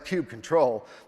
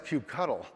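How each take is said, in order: First: The second part sounds like 'control'. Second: The second part sounds like 'cuddle'. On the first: "that's kube control" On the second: "no, that's kube cuddle"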